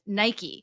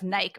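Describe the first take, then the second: First: Nike is said with an American pronunciation. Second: Nike is said with a British pronunciation. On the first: "versus Nike" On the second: "his British pronunciation of Nike"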